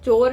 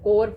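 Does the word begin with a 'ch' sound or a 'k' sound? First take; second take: ch; k. First: The word begins with a 'ch' sound. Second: The word begins with a 'k' sound. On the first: The speaker calls it wrong. "चोर नहीं पढ़ते" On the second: The speaker calls it right. "इसे कोर पढ़ते हैं"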